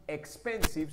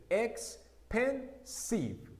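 First: Said in the usual way. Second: "Expensive" very slowly, in three separate beats; syllable by syllable. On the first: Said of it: "son tres". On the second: Shown as a demonstration. Teacher counting three syllables for learners, "Expensive" split syllable by syllable. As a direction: break "Expensive" into ex, pen, sive with pauses. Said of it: "Mire que ahí está tres sílabas".

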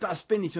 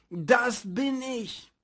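First: Said in the usual way. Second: Sehr langsam, Gewicht auf „bin“; „Das bin ich“ langsam ausbreiten, „bin“ betont. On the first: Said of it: "und gesagt hat". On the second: Shown as a demonstration. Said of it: "dass wir sagen". (langsam und betont gesprochen)

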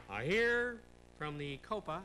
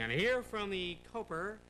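First: "Copa" ending on an open ah, no r, said slowly; slowly announce, ending "Copa" on an open vowel; Copa without r. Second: "Coper" said with a hard final r, slow host drawl; slowly announce, ending "Coper" on an r sound. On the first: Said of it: "I say Copa". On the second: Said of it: "I don't say Coper". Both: Shown as a demonstration.

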